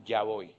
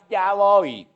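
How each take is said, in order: First: Soft, low, reluctant "Ya voy"; unwilling mumble; lazy child's reply. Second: Brisk "Ya voy", higher; quick dutiful reply; obedient child. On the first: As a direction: drag it out like a lazy kid. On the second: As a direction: answer at once, obediently. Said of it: "Vaya que usted diga". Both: Pretend.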